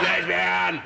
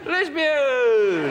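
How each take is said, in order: First: It is said in a nasty, hostile way. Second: It is said in a warm, friendly way. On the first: It is meant as an insult. "the other one. That's not very nice" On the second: It is a pleasant greeting. "That's nice"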